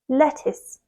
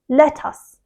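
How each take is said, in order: First: Soft T, second syllable sounds like 'is'. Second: Strong T, second syllable sounds like 'us'. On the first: The speaker calls it right. "The T is quite soft and blends nicely into the second syllable, which is is" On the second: The speaker calls it wrong. "they really strongly stress that T sound, and the second syllable they actually say us"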